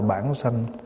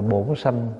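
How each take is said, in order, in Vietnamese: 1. Âm tiết đầu có nguyên âm 'a'. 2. Âm tiết đầu có nguyên âm 'o'. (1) "Người miền Bắc đọc là bản sanh" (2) "Cách đọc của người miền Nam thì đọc là bổn sanh"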